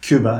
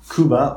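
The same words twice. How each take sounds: First: The name is pronounced the English way. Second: The name is pronounced the Portuguese way.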